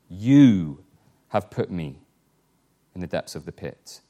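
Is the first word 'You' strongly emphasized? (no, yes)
yes. The word 'You' is strongly emphasized.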